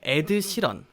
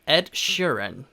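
First: The name is said with Korean sounds and syllables. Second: The name is said with English sounds and rhythm. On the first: "우리말로 어떻게 이야기하나요? 에드시런이라고 이야기하죠" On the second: "영어로는 이렇게 발음을 합니다"

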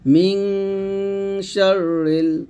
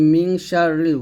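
First: The phrase is recited slowly with small pauses. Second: The phrase is recited quickly without pauses. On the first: The speaker calls it right. "ধীরে ধীরে পড়তে হবে, থেমে থেমে এরকম" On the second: The speaker calls it wrong. "এরকম তাড়াতাড়ি পড়ে যায়, তাড়াতাড়ি করবেন না"

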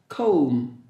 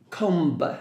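First: No b sound is heard at the end. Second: A b sound is heard at the end. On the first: The speaker calls it right. "no B sound" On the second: The speaker calls it wrong. "remember letter B is silent, you cannot pronounce comb. No"

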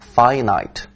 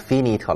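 First: The first vowel is a gliding diphthong. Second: The first vowel is a plain single vowel. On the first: The speaker calls it right. "注意一下看双元音哈" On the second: The speaker calls it wrong. "别念成finite 了"

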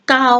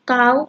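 First: The syllable is said with a mid level tone. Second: The syllable is said with a high tone.

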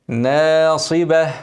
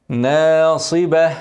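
No difference in how they are said.

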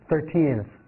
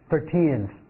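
First: The second syllable is clearly stressed. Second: The second syllable is clearly stressed.

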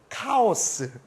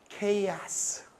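First: The word begins with a 'ka' sound. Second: The word begins with a 'kay' sound. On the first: The speaker has a little schooling in English. The speaker calls it wrong. "조금 학교를 다닌 애들은" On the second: The speaker is well educated in English. The speaker calls it right. "우리처럼 배운 사람들은 뭐라고 발음해요?"

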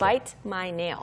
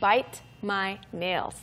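First: The words are linked together smoothly. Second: The words are said separately, broken apart.

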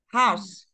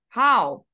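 First: The word ends with a clear S sound. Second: The word ends without any S sound. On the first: The speaker calls it right. "It is important for you to pronounce the S in house" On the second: The speaker calls it wrong. "if you say how"

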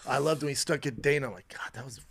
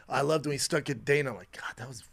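No difference in how they are said.

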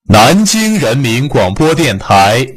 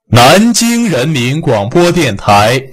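Both takes have the same delivery.

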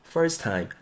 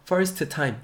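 First: One t sound is dropped, leaving one t. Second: Both t sounds are pronounced separately and hard. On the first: The speaker calls it right. "first time 한 개 날려보시고요" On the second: The speaker calls it wrong. "first time 힘들게 하지 마시고"

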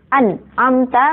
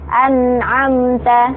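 First: The nun is cut off with a jerk. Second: The nun sound flows on smoothly. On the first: The speaker calls it wrong. "nggak boleh dihentak-hentakkan idharnya" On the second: The speaker calls it right. "harus jalan suara nunnya"

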